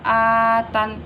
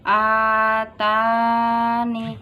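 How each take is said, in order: First: The word ends on the n consonant. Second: The word ends with a final i vowel. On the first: "dan boleh dibaca atan" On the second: "Bila dibaca wakof boleh dibaca atani"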